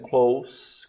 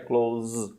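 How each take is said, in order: First: The word ends with a hissing S sound. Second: The word ends with a buzzing Z sound. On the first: Being near something. "com som de S" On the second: Shutting something. "de fechar é close, com som de Z"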